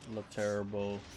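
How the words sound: The name is said with an English pronunciation. "let's just say English pronunciation"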